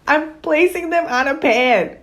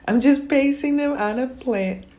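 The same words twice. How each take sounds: First: "pan" said right with a short a, through laughter; corrected pan, laughing. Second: "plant" said by mistake for "pan", full "plant" with a t; misspoken plant. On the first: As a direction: fix it to "pan" while laughing. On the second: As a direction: slip and say "plant" clearly, high and loud. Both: Real, not acted. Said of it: "Oh my gosh".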